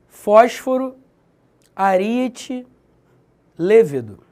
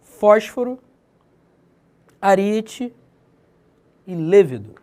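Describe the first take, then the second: First: Each word said slowly and separately, loud; example words. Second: "Fósforo" and "ariete" rising, "lêvedo" falling; "lêvedo" closing the list with a fall; example words again. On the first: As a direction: spell out "Fósforo", "ariete", "lêvedo" as separate examples. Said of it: "Proparoxítonos". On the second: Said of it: "as proparoxítones são as mais fáceis". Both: Shown as a demonstration.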